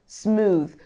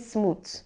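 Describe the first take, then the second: First: The word ends with a voiced th sound. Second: The word ends with a t sound. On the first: The speaker calls it right. "No, smooth" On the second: The speaker calls it wrong. "So it's not a t. Don't say smooth"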